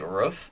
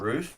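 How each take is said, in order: First: The word is said in an odd way. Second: The word is said in a standard way. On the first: This is how the other person says it. "you say roof a little bit weird" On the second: This is the usual way to say it. "instead of"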